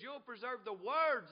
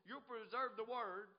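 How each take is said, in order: First: "words" hit loud and drawn out; stress on WORDS. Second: Said in the usual way. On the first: Shown as a demonstration. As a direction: punch the plural "words" slowly. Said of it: "It says". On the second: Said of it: "Notice it doesn't just say".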